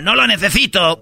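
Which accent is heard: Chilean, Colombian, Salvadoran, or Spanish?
Spanish. It is said with a Spanish accent.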